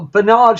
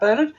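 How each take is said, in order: First: The name is pronounced a non-English way. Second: The name is pronounced the English way. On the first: The speaker calls it right. "should I say?" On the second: The speaker calls it wrong. "when us English see the word Bernard, we pronounce it Bernard"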